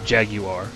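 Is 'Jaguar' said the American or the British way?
British. It is said with a British pronunciation. "or however they say it"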